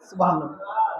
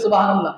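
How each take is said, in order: First: It is said at normal volume. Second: It is said more loudly.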